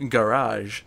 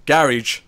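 First: Garage said the American way, guh-RAHZH; slow, American-style garage, guh-RAHZH; American pronunciation. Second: Garage said as GARR-idge; slow, local-style garage, GARR-idge; non-American pronunciation. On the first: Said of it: "to say it like an American". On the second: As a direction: stress the first syllable of garage, ending like "ridge". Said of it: "for Connor's sake". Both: Shown as a demonstration.

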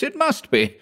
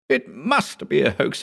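First: Desperate insistence. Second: Put-on insistent young assistant. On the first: Hugh insisting harder. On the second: Hugh insisting. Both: A narrator's reading.

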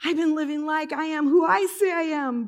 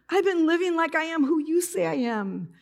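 First: High, tearful retelling with "I say" stressed; imitated crying voice, weight on "I say". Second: High, tearful retelling with "you" stressed; imitated crying voice, weight on "you". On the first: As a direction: punch the "I" before "say", pitched up. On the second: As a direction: lean on "you" in a tearful, raised pitch. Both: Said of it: "I break into tears".

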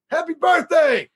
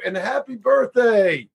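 First: Excited shout. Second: Said in the usual way. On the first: Pretend. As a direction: belt it out like a celebration. Birthday wish requested by fan.

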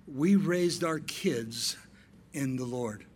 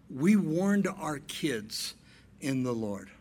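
First: Slow, weighty, each word set apart; slow, solemn preaching cadence; slow emphatic preaching. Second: Slow emphatic preaching. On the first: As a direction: lay it down slowly for the church. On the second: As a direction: drive it home slowly. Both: Shown as a demonstration. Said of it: "paced preaching".

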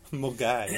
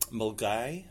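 First: "Mulgai" with "Mul" and "gai" rhyming with "guy", falling; "Mulgai" said the Scottish way, laughing; local pronunciation. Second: "Mulgai" rising, "gai" like "guy"; "Mulgai" said as locals say it; local pronunciation. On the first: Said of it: "It's pronounced Mulgai". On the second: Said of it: "which is spelt Millingavi". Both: Shown as a demonstration.

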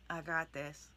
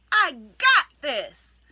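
First: Low, soft, half-hearted; timid mumble. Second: Loud, slow, firmly declared; confident declaration. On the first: Coach showing the wrong way, a timid half-hearted mumble. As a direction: say it without believing it. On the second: Coach showing how to declare an affirmation, loud and slow. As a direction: plant your feet and own it. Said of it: "declare it and mean it". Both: Shown as a demonstration.

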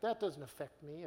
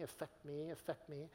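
First: Said in the usual way. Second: "affect me" repeated much softer, like an echo dying away; fading echo. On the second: Retold or imitated. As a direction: let "affect me" fade out like an echo. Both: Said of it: "some of you are going".

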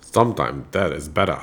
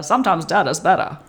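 First: Put-on low, softer Maine accent; practiced Maine accent, pitched well down. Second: Light Maine accent on the vowels; old-time Maine neighbor accent. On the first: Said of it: "try your best Maine accent for". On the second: Shown as a demonstration. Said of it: "try your best Maine accent".

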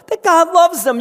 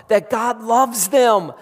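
First: That God loves them, much higher and louder, stress on loves; soaring preached repeat. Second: God loves them said slowly and firmly; slow emphatic statement. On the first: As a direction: launch it up into a cry. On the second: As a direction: lay it down slowly, deliberately. First take, slower. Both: Acted.

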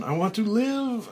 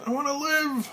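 First: High, loud plea to live; desperate cry. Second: Rising desperate scream. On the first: Frank under falling dirt, high loud plea. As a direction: beg for your life. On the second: Frank as dirt falls, plea climbing to a high scream. Repeated, even higher. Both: Acted.

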